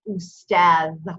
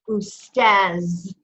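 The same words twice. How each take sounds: First: The final consonant is a 'th' sound. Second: The final consonant is a 'z' sound. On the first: This is the Modern Standard Arabic form. The speaker calls it right. "it should be pronounced Ustaz, Ustaz, with dal at the end" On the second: This is the Egyptian dialect form. The speaker calls it wrong. "if you're talking to Egyptians, they pronounce it Ustaz"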